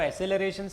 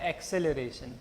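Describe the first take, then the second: First: The first syllable has no k sound: ess. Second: The first syllable has a k sound: ex. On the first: "आपको एसेलरेशन सही लगता है वो बोल लो" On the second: "मुझे जो pronunciation रटा हुआ है वो क्या है"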